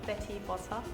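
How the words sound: The t sounds are said as crisp t sounds. "and the British, you go"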